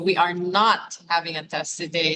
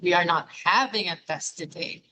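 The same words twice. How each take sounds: First: The word not carries the main stress. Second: The word having carries the main stress. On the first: There is definitely no test today. "So the emphasis on not" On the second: Perhaps a different verb should replace having. "Is it not having?"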